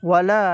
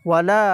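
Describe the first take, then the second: No difference in how they are said.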